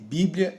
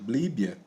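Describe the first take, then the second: First: The l comes right after the second b. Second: The l comes right after the first b. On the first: The speaker calls it right. "a forma correta" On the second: The speaker calls it wrong. "elas estão é, erradas"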